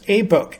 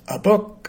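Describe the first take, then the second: First: The article is said as a full 'ay'. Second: The article is said as a reduced 'uh'. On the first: "the dictionary says" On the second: "what we would usually say is"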